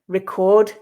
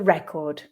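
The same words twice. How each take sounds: First: The stress is on the second syllable. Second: The stress is on the first syllable. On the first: It is the verb. "the second syllable with the" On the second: It is the noun. "we'll be stressing the first syllable with the nouns"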